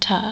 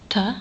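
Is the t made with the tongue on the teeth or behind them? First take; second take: behind teeth; on teeth. First: The tongue touches the ridge behind the teeth. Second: The tongue touches the back of the teeth. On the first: "rather than" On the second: "This sound is pronounced exactly between those other two sounds"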